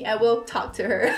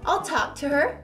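First: The word 'will' is said in full, stressed. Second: The word 'will' is contracted to 'I'll'. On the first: The statement is emphasized. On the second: A plain, neutral statement.

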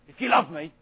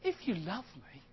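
First: It sounds doubting and challenging toward the listener. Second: It sounds warm, gentle and matter-of-fact. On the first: Love is doubted and put to the test. The speaker calls it wrong. "I don't think he said, if you love me" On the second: Obedience follows naturally from love. The speaker calls it right. "I think he said"

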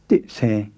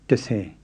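First: The first syllable is full, ending in a stop. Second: The first syllable is weakened to a short vowel. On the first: The speaker calls it wrong. "Instead of dit se" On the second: The speaker calls it right. "you say de se"

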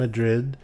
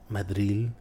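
First: It is said plainly, in an ordinary English accent. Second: It is said with a showy Spanish-style accent.

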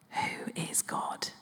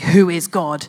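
First: The question is said softly, in a whisper. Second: The question is said loudly, as a shout. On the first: The question is asked quietly and sincerely. "It's often whispered" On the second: The question is asked aggressively. "no one really shouts that question"

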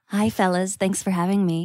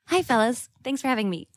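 First: It is said in an exaggeratedly sultry voice. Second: It is said in her ordinary voice.

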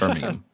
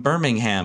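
First: The H sound is dropped from the name. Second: The H sound is pronounced in the name. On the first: The speaker calls it right. "You don't pronounce the H" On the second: The speaker calls it wrong. "my mother still says Birmingham all the time"

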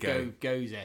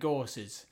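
First: It ends in an 'uh' vowel, like 'Goza'. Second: It ends in an 's' sound, like 'Gorse'. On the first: The speaker calls it right. "remember how to pronounce it" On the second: The speaker calls it wrong. "we don't want you to go into the old shop and saying"

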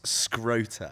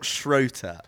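First: The name begins with an sk sound. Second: The name begins with an sh sound. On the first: The speaker calls it wrong. "sounds like a guy's ball bag" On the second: The speaker calls it right. "is it not Schroeter"

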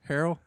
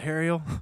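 First: The surname is said in its usual form. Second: The surname is said with a different vowel pattern. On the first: The speaker calls it right. "What is her last name?" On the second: The speaker calls it wrong. "I mispronounced her last name"

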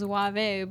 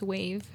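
First: The name is said with Spanish pronunciation. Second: The name is said with English pronunciation. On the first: "if you're talking to me in Spanish, it's Wave" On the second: "but in English, it's Wave"

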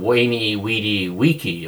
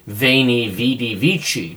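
First: It is said in classical Latin pronunciation. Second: It is said in ecclesiastical Latin pronunciation.

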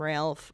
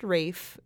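First: The name is said with an L sound. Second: The name is said like Rafe, no L. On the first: The speaker calls it wrong. "where I did call him Ralph" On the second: The speaker calls it right. "I know now that it is pronounced Rafe"

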